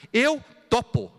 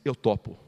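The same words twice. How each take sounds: First: "Eu topo" slow, higher and louder, drawn out; stretched emphatic repeat. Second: Said in the usual way. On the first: Shown as a demonstration. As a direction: savor the words "Eu topo". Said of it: "Só isso, é só querer". ("Eu topo" lento, mais agudo e mais forte) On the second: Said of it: "nunca vou esquecer a resposta".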